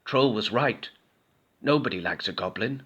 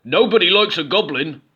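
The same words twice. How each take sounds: First: A touch of sadness, softer; understated goblin gloom; sad goblin. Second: Higher, louder troll warning. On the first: Goblin admitting defeat to Skeleton, softly sad. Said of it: "said Goblin". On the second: Troll warning Goblin, loud higher troll. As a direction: warn him as the troll. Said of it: "said the troll". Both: A narrator's reading.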